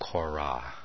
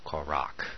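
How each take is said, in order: First: The name ends with a soft, open h sound. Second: The name ends with a harsh, guttural consonant.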